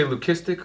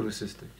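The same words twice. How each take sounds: First: "leucistic" with a K sound, loo-KISS-tik; hard C pronunciation. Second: "leucistic" with an S sound, loo-SISS-tik; soft C pronunciation. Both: Shown as a demonstration. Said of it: "do you say leucistic or leucistic".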